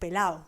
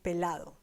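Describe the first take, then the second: First: The d sound in the middle is dropped. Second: The d sound in the middle is pronounced. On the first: "some people kind of have dropped that D sound, and it turns into pelado" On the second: "the original word would be pelado"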